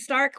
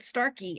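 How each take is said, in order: First: The name is one syllable with a silent end. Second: The name ends with an extra 'ee' syllable. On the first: The speaker calls it right. "It's [name] with an E on the end" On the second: The speaker calls it wrong. "they'll pronounce it Starkey"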